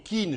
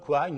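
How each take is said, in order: First: The name is said with a French pronunciation. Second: The name is said with an English pronunciation. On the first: The speaker calls it right. "je prononce à la, à, à la française" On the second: The speaker calls it wrong. "la prononciation anglo-saxonne, n'est pas très belle"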